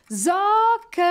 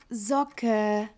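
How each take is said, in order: First: The name is shouted very loudly. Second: The name is said at a normal, quiet volume.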